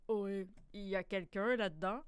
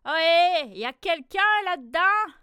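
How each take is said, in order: First: Lower, softer, slightly gruff question; a big beast asking from outside; gruff wolverine asking. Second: Loud, high hail into the mitten; fox calling out. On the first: Wolverine at the mitten asking, lower and softer. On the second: Fox outside the mitten hailing the animals, loud high call. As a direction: call out to whoever is inside. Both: A narrator's reading.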